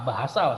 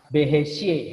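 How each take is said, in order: First: The vowels are open a sounds. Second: The vowels are closer e-like sounds. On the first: The speaker calls it right. "bahasa sih" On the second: The speaker calls it wrong. "bukan behesye"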